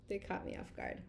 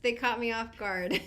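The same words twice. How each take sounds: First: Low, soft, nearly voiceless murmur; subdued repeat. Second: Said in the usual way. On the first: Real, not acted. Explaining her tears to viewers, quiet and subdued. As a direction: let it drop to a near whisper. Repeats it softly after laughing.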